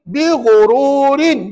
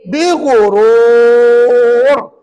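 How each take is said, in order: First: The phrase ends with a vowel and final n. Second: The phrase ends on a long-held r consonant. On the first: The reading continues without stopping. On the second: The reader stops at this word.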